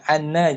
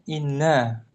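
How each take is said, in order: First: The first vowel is an open 'a' sound. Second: The first vowel is a front 'i' sound. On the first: The speaker calls it right. "Dibaca anna" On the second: The speaker calls it wrong. "jangan dikasrah hamzahnya ya. ... jangan inna"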